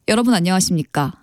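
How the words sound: It is said in a deep, low announcer voice.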